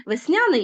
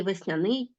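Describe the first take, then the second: First: Весняний said as ves-NYA-nyi; Весняний with the second syllable strong; stress on middle syllable. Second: Весняний said as ves-nya-NYI; весняний with the ending strong; stress on last syllable. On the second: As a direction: stress the final НИЙ of весняний. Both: Shown as a demonstration. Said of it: "слова з подвійним наголошенням".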